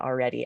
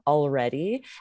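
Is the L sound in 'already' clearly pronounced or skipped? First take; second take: skipped; pronounced. First: The L sound is skipped. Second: The L sound is clearly pronounced. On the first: "just like Lindsay just said" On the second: "you might hear someone pronounce that L"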